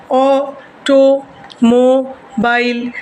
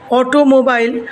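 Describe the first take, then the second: First: automobile very slowly as o - to - mo - bile; automobile with a pause after each syllable; split into syllables. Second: Said in the usual way. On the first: Shown as a demonstration. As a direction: break automobile into four separate, drawn-out beats. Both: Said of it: "কীভাবে ভেঙে উচ্চারণ করতে পারছি".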